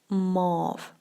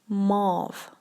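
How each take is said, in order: Both takes have the same delivery.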